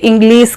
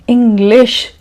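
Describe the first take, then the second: First: The final sound is a hissing 's'. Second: The final sound is a hushing 'sh'. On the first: The speaker calls it wrong. "If you are also having this problem, if you also say English" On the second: The speaker calls it right. "then say"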